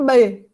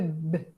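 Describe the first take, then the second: First: It is said as a syllable with a vowel. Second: It is said as a short bare consonant. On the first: This is the name of the letter. "B é o nome da letra B" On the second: This is the sound the letter makes. "O som do B é B"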